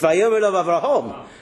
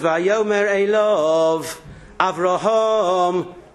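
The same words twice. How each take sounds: First: The three words run together without a break. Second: There is a break before the final word. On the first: Avraham is the one speaking. The speaker calls it wrong. "No, it's Vayomer Elov Avraham. And Avraham said to him" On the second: Someone calls Avraham by name. The speaker calls it right. "says Vayomer Elov, Avraham"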